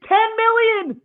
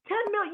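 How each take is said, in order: First: Screamed high and loud; shouted outrage. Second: High but quieter disbelieving repeat; softer repeat. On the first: Podcaster raging at a cheap contract offer, outraged shout. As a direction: scream the number in disbelief. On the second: Podcaster repeating the offer, stunned disbelief. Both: Real, not acted. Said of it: "That's the end of my crash out".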